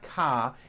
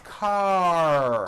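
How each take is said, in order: First: The word ends in a vowel without R. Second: The word ends with a strong R sound. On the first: The speaker calls it wrong. "but it's not ka" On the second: The speaker calls it right. "it's car. Your tongue has to pull back"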